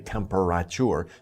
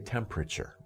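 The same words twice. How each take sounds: First: Every syllable is pronounced separately and fully. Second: Some syllables are shortened and run together. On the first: The speaker calls it wrong. "overpronounce the syllables like temperature, but don't say temperature" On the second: The speaker calls it right. "say temperature"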